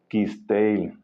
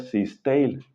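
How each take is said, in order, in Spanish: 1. El nombre empieza con sonido K. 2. El nombre empieza con sonido S. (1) "se pronuncia con K de kilo" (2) "no se pronuncia Sisteil"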